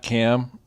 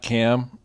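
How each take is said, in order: First: The syllable has a short vowel, like 'cam'. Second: The same.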